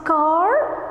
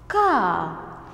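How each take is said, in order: First: The final r sound is pronounced. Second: The final r sound is silent. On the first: The speaker calls it wrong. "We don't say car because car is American English" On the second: The speaker calls it right. "But we are British English, so we say car"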